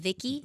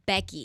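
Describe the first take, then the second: First: The name is said with a Spanish accent. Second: The name is said with an English accent. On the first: "in Spanish, Becky doesn't sound like Becky. It's like almost like my name is Vicky" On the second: "Becky doesn't sound like Becky"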